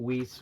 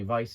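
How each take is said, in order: First: The word begins with a W sound. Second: The word begins with a V sound. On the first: The speaker calls it wrong. "Whis was the wrong way of saying it" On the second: The speaker calls it right. "I'm trying to say Vice now"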